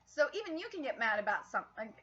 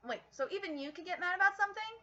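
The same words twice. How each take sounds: First: Said in the usual way. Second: Fast, raised-pitch second take; quicker, higher reread. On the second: Shown as a demonstration. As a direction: reread the line faster and higher, surprised.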